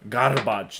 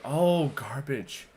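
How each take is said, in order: First: "garbage" drawn out with a rolled R. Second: Drawn-out, higher "oh, garbage"; mimicked realisation. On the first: Shown as a demonstration. Showing how rolling the R gets understood, slow rolled-R "garbage". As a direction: roll the R in "garbage", stretching it slowly. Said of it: "they'll roll their R's". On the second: Imitating listeners who finally understand, slow dawning recognition. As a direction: stretch it out as the penny drops. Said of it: "they're like".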